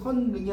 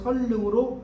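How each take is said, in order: First: The second syllable begins with an n sound. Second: The second syllable begins with an l sound. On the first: The speaker calls it wrong. "선릉이 아니라" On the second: The speaker calls it right.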